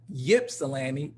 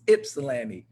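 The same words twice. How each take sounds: First: "Ypsilanti" starting with a Y sound, YIP-suh-lan-tee; mispronounced with Y sound. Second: "Ypsilanti" starting with a short i, IP-suh-lan-tee; local pronunciation. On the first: Host showing the newcomer's mistake, "Ypsilanti" said as Yip-silanti. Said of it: "it wasn't Ypsilanti". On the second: Host correcting from college days, "Ypsilanti" said as Ip-silanti. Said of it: "it was Ypsilanti". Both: Shown as a demonstration.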